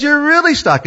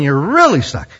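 First: "really stuck" jumped much higher; rising exasperation on "really stuck"; stuck even harder. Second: Said in the usual way. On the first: Shown as a demonstration. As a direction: push "really stuck" up as the trouble grows. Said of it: "And then you have grandkids". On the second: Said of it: "You have children".

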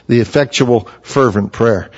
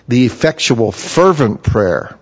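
First: Said in the usual way. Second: "The effectual, fervent prayer" with "fervent" drawn out slowly; slow, weighty quote. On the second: Real, not acted. Preacher quotes James to the church, slow and weighty on "fervent". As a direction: lean on "fervent", stretch it slowly. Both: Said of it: "Did you hear those words?".

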